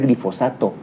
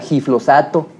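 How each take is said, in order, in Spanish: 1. El sonido l va justo después de la g. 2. El sonido l va justo después de la f. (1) "no sabe pronunciar glifosato" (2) "pronuncia giflosato o cualquier otra cosa"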